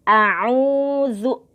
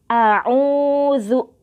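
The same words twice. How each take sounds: No difference in how they are said.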